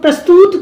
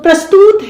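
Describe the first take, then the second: First: The last syllable has a short u vowel. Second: The last syllable has a long u vowel. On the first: The speaker calls it right. "बड़े ऊ की नहीं छोटे ऊ की मात्रा लगी है" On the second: The speaker calls it wrong. "अब अगर ये बोलेंगे तो प्रस्तुत तो नहीं है वो"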